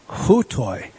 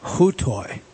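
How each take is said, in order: First: "Hutoi" said as hoo-toy, low and slow; Greek word read aloud. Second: "Hutoi" said as hoo-tih, low and slow; Greek word read aloud. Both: Shown as a demonstration. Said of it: "See this word here?".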